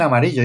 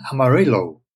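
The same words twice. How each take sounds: First: Said in the usual way. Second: AMARILLO a la inglesa, "ama-RI-lou"; pronunciación americana. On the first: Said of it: "Y no dicen Amarillo". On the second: Shown as a demonstration. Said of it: "dicen Amarillo". ("Amarillo" como "amarílou", a la americana)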